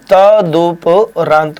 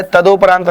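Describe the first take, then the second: First: तदुपरांत said slowly with a clear u; correct form, slow. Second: तदोपरांत said with o in the middle as the wrong version; wrong form. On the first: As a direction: stretch तदुपरांत out as the right version. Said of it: "तदुपरांत होता है". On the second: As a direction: say तदोपरांत with a clear o as the mistake. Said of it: "नहीं होता है". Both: Shown as a demonstration.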